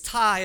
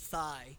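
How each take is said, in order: First: The syllable starts with a plain 't' sound. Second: The syllable starts with a 'th' sound. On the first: "it's Thai, as in like Thai food" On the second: "it'll say it with a T-H, thigh, kind of like chicken thigh"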